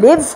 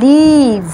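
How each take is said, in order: First: The vowel is short and clipped. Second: The vowel is long and drawn out. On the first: The speaker calls it wrong. "সেটা অনেক short" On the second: The speaker calls it right. "ই সাউন্ডটা করছে elongated"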